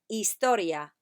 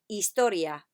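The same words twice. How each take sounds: The two takes are said the same way.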